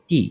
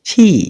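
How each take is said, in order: First: The consonant is plain with no breath. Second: The consonant has a strong breathy release. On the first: The speaker calls it wrong. "এটা আমরা আগে বলতাম টি" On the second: The speaker calls it right. "এখন আমরা সঠিক কি শিখলাম ছি"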